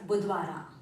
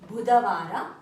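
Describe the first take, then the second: First: The vowel after 'Budh' is dropped. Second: The vowel after 'Budh' is pronounced. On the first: This is the everyday spoken form. "colloquial version is Budvara" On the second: This is the written form. "written version is Budhavara"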